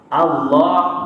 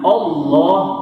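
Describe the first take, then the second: First: The first vowel is light and thin. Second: The first vowel is heavy and thick. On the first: The speaker calls it right. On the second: The speaker calls it wrong.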